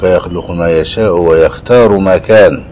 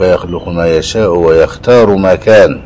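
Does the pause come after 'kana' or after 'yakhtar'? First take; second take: after kana; after kana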